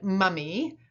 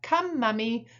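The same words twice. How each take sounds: First: Said in the usual way. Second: Parent modelling. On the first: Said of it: "your child had said". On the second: Shown as a demonstration. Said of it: "you might repeat back".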